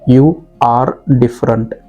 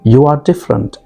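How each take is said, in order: First: The r sound is pronounced strongly. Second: The r sound is pronounced softly. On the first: The speaker calls it wrong. "रो को ज़ोर से बोलूँगा जो कि गलत है" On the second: The speaker calls it right. "र को हल्के से कहूँगा"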